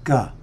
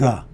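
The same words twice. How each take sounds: First: It begins with a hard G sound. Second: It begins with a hard G sound.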